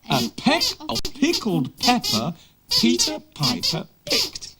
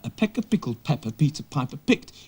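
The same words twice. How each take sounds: First: It is said a little more slowly. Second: It is said at normal speed.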